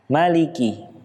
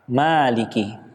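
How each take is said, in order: First: The vowel after the m is short. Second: The vowel after the m is drawn out long. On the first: The speaker calls it right. "huruf mim yang berharokat fathah ini tidak dibaca panjang" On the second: The speaker calls it wrong. "Yang salah"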